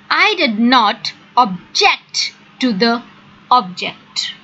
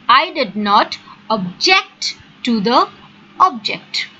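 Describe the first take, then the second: The two takes are said the same way.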